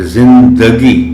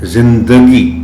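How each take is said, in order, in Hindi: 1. d ध्वनि के बाद एक छोटा स्वर आता है। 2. d ध्वनि के बाद एक छोटा स्वर आता है।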